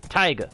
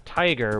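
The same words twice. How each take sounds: First: "Taiga" like tiger in an r-dropping accent. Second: Said in the usual way. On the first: Shown as a demonstration. Player joking that taiga resembles tiger, accented "tiger". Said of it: "sounds like I'm saying tiger with an accent". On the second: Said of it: "saying tiger with an accent".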